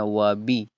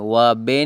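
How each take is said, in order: First: The word ends in an 'i' sound. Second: The word ends in an 'e' sound. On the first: The speaker calls it right. "ब जेर बी होता है" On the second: The speaker calls it wrong. "वाबे नहीं कहना"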